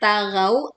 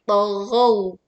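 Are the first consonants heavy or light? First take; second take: light; heavy. First: The t and gh sounds are light and thin. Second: The t and gh sounds are heavy and thick. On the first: The speaker calls it wrong. "Jangan tagau" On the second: The speaker calls it right. "Dua huruf ini huruf tebal"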